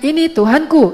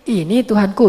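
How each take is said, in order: First: It is said as a statement, falling at the end. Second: It is said as a question, rising at the end.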